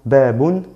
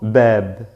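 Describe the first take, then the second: First: The word ends with an added -un sound. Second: The word ends bare on the b sound. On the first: The speaker calls it wrong. "digo babun, no" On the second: The speaker calls it right. "solo bab"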